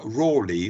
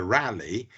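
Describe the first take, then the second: First: "Raleigh" said RAW-lee, with a long aw; contemporary pronunciation. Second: "Raleigh" said RAL-ee, with a short flat a as in "rally"; American pronunciation. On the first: Lecturer giving the period way of saying the name, "Raleigh" as RAW-lee. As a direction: say "Raleigh" with a first syllable like "raw". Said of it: "was the contemporary pronunciation of the name". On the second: Lecturer showing how Americans say the name, "Raleigh" as RAL-ee. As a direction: say "Raleigh" to rhyme with "tally". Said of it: "The Americans prefer Raleigh". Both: Shown as a demonstration.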